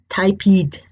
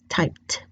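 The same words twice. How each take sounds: First: The word is said with an extra ending syllable. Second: The word is said as one syllable. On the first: The speaker calls it wrong. "Otherwise, it would say typed ... a completely different pronunciation" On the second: The speaker calls it right. "So we only need to add the d"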